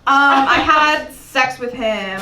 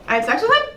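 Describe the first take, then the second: First: "Um, I had sex with him" said slowly, every word weighed; a slow, proud confession to the audience; slow deliberate confession. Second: Said in the usual way. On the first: Shown as a demonstration. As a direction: own it, slow and emphatic on "had". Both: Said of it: "stand in my truth and say".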